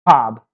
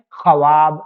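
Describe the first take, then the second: First: ख्वाब said khaab, w dropped; ख्वाब with no w sound; silent w. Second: ख्वाब with the w sounded, kha-waab; ख्वाब in two syllables, audible w; as written. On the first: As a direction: read ख्वाब as one syllable, "khaab". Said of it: "इसको हम लोग पढ़ते हैं". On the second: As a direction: say ख्वाब letter by letter as spelt, "khawaab". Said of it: "लिखने में तो आता है". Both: Shown as a demonstration.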